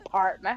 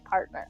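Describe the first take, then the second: First: The word is said in a cowboy-style drawl. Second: The word is said in a plain everyday voice. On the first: "I did say it like that. I'm like, partner" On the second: "Instead of saying it like, ah, you're my partner"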